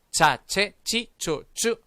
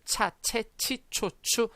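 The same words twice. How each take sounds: First: "차체치초추" slow, higher, halfway between tense and aspirated. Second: "차체치초추" with airy puffs on every ch; overly aspirated CH. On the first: Teacher leading repeat after explanation, in-between CH. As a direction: say each syllable of "차체치초추" with only a little air. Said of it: "약간 된 소리와". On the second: Teacher warning against only this sound, overly aspirated CH. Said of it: "이렇게만 발음하시면 안 좋고요". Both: Shown as a demonstration.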